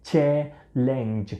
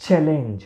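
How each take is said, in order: First: ચેલેન્જ slowly, split as ચે-લેન્જ; syllable by syllable. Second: Said in the usual way. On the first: Shown as a demonstration. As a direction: model ચેલેન્જ in two drawn-out beats. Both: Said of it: "આમાં પણ ચ નો ઉચ્ચાર છે".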